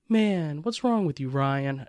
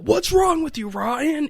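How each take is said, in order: First: It sounds disappointed. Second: It sounds angry.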